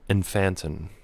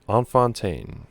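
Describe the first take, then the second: First: The name is said with an American accent. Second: The name is said with a French-like accent.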